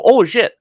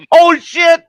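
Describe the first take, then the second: First: High, loud retold oops; caught-out surprise. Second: Very high, loud imitation of panic; mock panic. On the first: Resident caught without his mask on, retold startled blurt. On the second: Manager realizing she has no mask, mock panicked yelp. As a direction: squeal it high and loud, imitating someone caught out.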